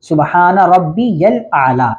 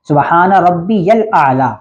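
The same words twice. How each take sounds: First: The middle word is said as 'rabbiyal', with 'ya'. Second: The middle word is said as 'rabbiyal', with 'ya'.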